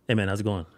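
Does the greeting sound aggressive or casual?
casual. The greeting sounds relaxed and friendly. There is no wish to fight. The speaker calls it right. "versus this"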